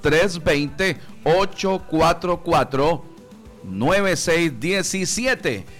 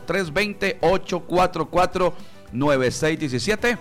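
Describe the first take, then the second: First: The number is said more slowly. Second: The number is said at normal speed.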